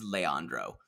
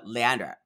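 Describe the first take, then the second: First: The final vowel of the name is pronounced. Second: The final vowel of the name is dropped. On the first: The speaker calls it right. "but his name is Leandro" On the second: The speaker calls it wrong. "She doesn't pronounce the last thing"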